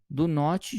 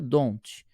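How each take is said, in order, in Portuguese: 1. É pronunciado como duas palavras separadas e completas. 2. É pronunciado como uma sílaba contraída. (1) "Juntando do o not" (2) "junta, fica don't"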